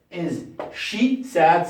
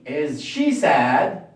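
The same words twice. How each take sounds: First: Is she sad, slow with falling end; slow repeat. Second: Is she sad, slow and deliberate; slow question drill; slow question model. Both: Shown as a demonstration. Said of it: "modelling question".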